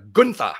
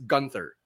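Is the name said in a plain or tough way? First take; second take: tough; plain. First: The name is said in a tough, forceful way. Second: The name is said in a plain, ordinary way. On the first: The name sounds badass. The speaker calls it right. "we should really pronounce it the way he does" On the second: The name sounds ordinary. The speaker calls it wrong. "as opposed to just Gunther"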